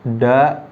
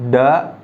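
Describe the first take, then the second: Both takes have the same delivery.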